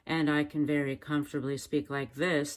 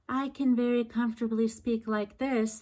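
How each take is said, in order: First: It is spoken at a low pitch. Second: It is spoken at a high pitch.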